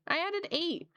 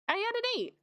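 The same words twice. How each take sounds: First: Amused disbelief. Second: Surprised. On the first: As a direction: say it again, amused. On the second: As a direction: blurt it out in disbelief. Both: Real, not acted.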